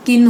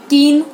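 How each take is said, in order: First: किन with a quick short I; short vowel. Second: कीन loud with a long EE; high, loud, long-vowelled कीन. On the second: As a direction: stretch the EE in कीन, louder. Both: Shown as a demonstration. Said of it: "मात्रा गलत लगा देते हैं".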